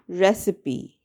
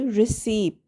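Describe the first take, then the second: First: The word is said with three syllables. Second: The word is said with two syllables. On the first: The speaker calls it right. "There are three syllables" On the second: The speaker calls it wrong. "Sometimes learners of the English language say receipt"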